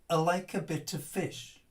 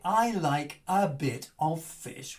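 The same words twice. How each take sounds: First: The small words are reduced to weak schwa vowels. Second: The small words keep their full vowels. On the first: The speaker calls it right. "The I gets weakened into sort of, uh, ... a bit becomes, uh, the schwa" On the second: The speaker calls it wrong. "we don't say"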